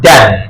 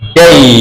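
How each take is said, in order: First: The vowel is short, like in 'dan'. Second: The vowel is a glide, like in 'day'. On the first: The speaker calls it wrong. "এখানে ড্যান না হয়" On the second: The speaker calls it right. "কি হবে? ডেই"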